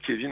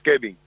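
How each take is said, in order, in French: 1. La consonne du milieu est un son V. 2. La consonne du milieu est un son B. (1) "On prononce pas Kevin en Espagne" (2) "mais on prononce Kevin. ... avec un B"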